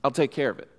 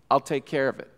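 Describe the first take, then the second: No difference in how they are said.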